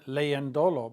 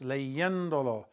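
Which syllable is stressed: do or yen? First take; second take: do; yen. First: The stress is on the syllable do. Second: The stress is on the syllable yen. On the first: The speaker calls it wrong. "But we don't pronounce it like that" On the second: The speaker calls it right. "It's leyendolo"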